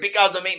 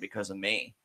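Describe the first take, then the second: First: It is said in an angry tone. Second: It is said in a somber tone. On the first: "he didn't even say it like that angry" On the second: "he said it very somber"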